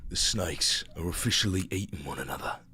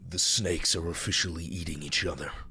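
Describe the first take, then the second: First: It is said in a put-on British accent. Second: It is said in the speaker's own accent.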